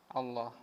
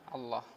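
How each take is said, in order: The two takes are said the same way.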